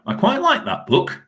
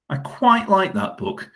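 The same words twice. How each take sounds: First: High and light. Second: Drawn-out "quite" in "I quite like that book"; slower, still high. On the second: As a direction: lean slowly on "quite" in "I quite like that book". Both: Shown as a demonstration.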